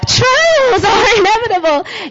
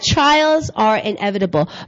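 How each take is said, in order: First: It is said high and cheerful. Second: It is said in a plain voice.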